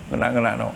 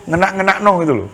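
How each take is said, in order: First: "Ngenak-ngenak no" repeated lower and much softer; quiet echo of "Ngenak-ngenak no". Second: "Ngenak-ngenak no" rattled off fast and higher; first quick take of "Ngenak-ngenak no"; quick lively. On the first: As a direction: murmur "Ngenak-ngenak no" to yourself, low. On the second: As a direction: toss off "Ngenak-ngenak no gitu loh" quickly and brightly. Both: Shown as a demonstration.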